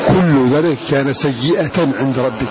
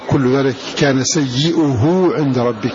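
First: The word ends in a feminine 'atan' with nunation. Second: The word ends in a rounded 'uhu' without nunation. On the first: "والباقون قرأوا" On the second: "بضم الهمزة وبهاء مضمومة بلا تنوين"

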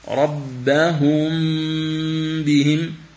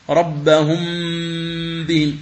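First: The m is nasalized two counts with lips lightly touching. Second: The m is nasalized with the lips pressed hard together. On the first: The speaker calls it right. "هذه هي القراءة الصحيحة" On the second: The speaker calls it wrong. "يضم الشفتين ضما شديدا"

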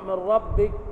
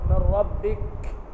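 First: The final k has no breath at all. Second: The final k has a heavy, exaggerated breath. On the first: "تضيع الصفة بتاعت الحرف" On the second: "لا أنت بتعزق في الحرف"

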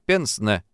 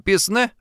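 First: The word is said with an 'e' sound, 'pensne'. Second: The word is said with an 'i' sound, 'pisne'. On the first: The speaker calls it right. "а пенсне" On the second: The speaker calls it wrong. "Не писне"

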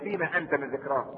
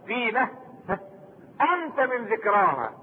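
First: The phrase runs on without a pause. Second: There is a pause after the first word. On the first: What do you have to do with mentioning it? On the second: You yourself are one of its signs.

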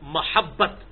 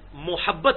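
First: The first vowel is an 'a' sound. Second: The first vowel is a 'u' sound. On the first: The speaker calls it right. "یہ میم پر زبر ہوتی ہے" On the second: The speaker calls it wrong. "یہ میم پہ پیش نہیں ہے"

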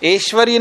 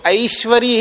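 First: The first vowel is a plain 'e' sound. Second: The first vowel is an 'ai' glide. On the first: It does not match how the word is written. The speaker calls it wrong. "ऐश्वर्य नहीं बोलना चाहिए" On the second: It matches how the word is written. The speaker calls it right. "उसको ऐश्वर्य ही बोलना चाहिए"

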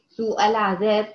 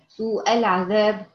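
The two takes are said the same way.

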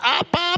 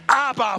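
First: It is bawled in a whining, babyish voice. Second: It is said in a bold, confident voice. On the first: The speaker is helpless and dependent. The speaker calls it wrong. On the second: The speaker claims authority as a son. The speaker calls it right.

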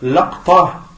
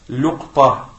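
First: The first vowel, after the l, is a. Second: The first vowel, after the l, is u. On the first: "Le premier c'est l'aqta bi fath al-lam" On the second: "le dhamma sur le lam"

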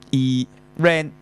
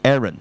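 First: The second syllable is a full 'ran' sound. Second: The second syllable is light and reduced. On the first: The speaker calls it wrong. "你就讀呢個eran" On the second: The speaker calls it right. "aaron 就唔係讀個ran 音，即係後面咧係輕音嘅"

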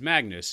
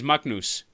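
First: The name has an Americanized English pronunciation. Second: The name has its native, non-English pronunciation. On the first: "it's not how you actually pronounce it" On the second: "I would never go to an American"

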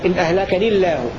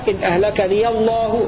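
First: The l sound in the last word is thin. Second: The l sound in the last word is heavy. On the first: "يسكن ... مع ترقيق اللام من لفظ الجلالة" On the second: "بفتحها ... مع تغليظ اللام من لفظ الجلالة"

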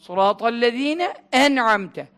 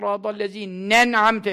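First: The n stays with the first word, separated. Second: The n runs straight into the next word. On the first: The speaker calls it right. "Ne ayrı, e ayrı" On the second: The speaker calls it wrong. "çoğu imam öyle okuyor biliyor musun? Nen'amte. Çok fena tehlikeli"

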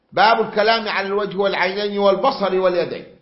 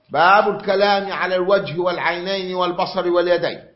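No difference in how they are said.

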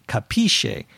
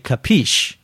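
First: It is said with an Italian pronunciation. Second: It is said with an American pronunciation. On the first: "The Italian pronunciation, I think, would be capisce" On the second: "but we say capiche"

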